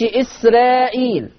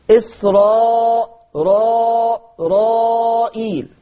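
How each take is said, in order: First: إسرائيل said with a thin, light R; wrong thin R. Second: إسراء را رائيل with a full, heavy R, drawn out slowly. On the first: Teacher showing the wrong reading of إسرائيل, thin R. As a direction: say إسرائيل with the R thinned. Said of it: "ما يقولش إسرائيل". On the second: Teacher showing Warsh's heavy R in إسرائيل, slow. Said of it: "الراء هتبقى هنا مفخمة". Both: Shown as a demonstration.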